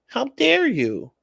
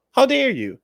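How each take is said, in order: First: High, slow mocking how dare you; mock outraged high voice. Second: High, loud snapped how dare you; mock outraged high voice. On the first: Mocking the offended partner in a slow squeaky voice. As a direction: squeak it out like a hammed-up offended diva. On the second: Mocking the offended partner, high and loud. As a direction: bark it like a hammed-up diva.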